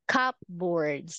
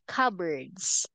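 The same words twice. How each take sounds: First: The P sound is clearly pronounced. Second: The P sound is not pronounced. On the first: The speaker calls it wrong. "so much better than pronouncing it like cupboards, like that" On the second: The speaker calls it right. "P is silent"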